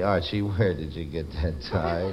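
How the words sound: It is said in a sad, mournful tone.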